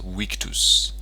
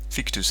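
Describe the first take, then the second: First: The first sound is a W. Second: The first sound is a V. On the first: "a V is pronounced as a W, so it's a Victus" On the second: "Victus and Vitrius is fine"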